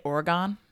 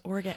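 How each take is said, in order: First: Oregon with a full GONE ending. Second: Oregon with a reduced last syllable; Oregon as ORE-uh-gun. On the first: Retold or imitated. Co-host citing how people say it, Oregon as ORE-uh-gone. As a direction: end Oregon like the word gone. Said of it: "like when people say Oregon". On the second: Shown as a demonstration. Co-host correcting the odd version, Oregon as ORE-uh-gun. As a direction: end Oregon lightly, like gun. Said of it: "no, it's Oregon".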